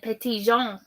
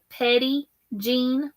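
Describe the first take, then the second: First: The name is pronounced with a French sound. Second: The name is pronounced the plain English way. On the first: The speaker calls it wrong. "I was trying to be all French" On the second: The speaker calls it right. "pronounced like Petty Jean"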